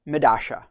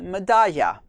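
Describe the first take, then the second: First: The double L has an Argentinian sound. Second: The double L has a general Spanish sound. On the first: "the Argentinian pronunciation or South American pronunciation" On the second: "the double L in Spanish would be"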